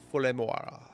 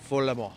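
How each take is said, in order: First: "Follemort" stretched to end in "mo-ah-ra"; exaggerated pronunciation. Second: "Follemort" ending on a short open "mor"; trying out pronunciation. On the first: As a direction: draw out the end of "Follemort" into extra vowels. Trying the place name another way. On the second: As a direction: say "Follemort" with the final T silent. Trying out the place name. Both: Shown as a demonstration.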